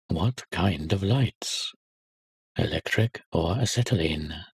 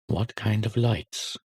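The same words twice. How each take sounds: First: Put-on slow, each word spelled out for a bewildered boy; slow impatient repeat. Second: Said in the usual way. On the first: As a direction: repeat the question slowly and pointedly. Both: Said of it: "The little boy is bewildered".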